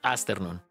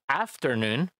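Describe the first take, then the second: First: An S sound follows the first vowel. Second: A clear F sound follows the first vowel. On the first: The speaker calls it wrong. "suena feo" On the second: The speaker calls it right. "Esa F se marca"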